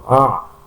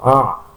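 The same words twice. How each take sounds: First: The sound is thick with a narrowed throat. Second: The same.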